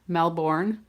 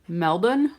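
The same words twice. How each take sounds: First: The word is said fully, sounding all its letters. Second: The word is reduced, with its letters not all sounded. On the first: This is how people in the US say it. "we would kind of say that phonetically with all of the letters in there" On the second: This is how people in Australia say it. "said it more like Melbourne, Australia"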